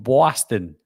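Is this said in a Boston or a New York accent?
New York. It is said in a New York accent. "if someone from New York would say, you're from Boston"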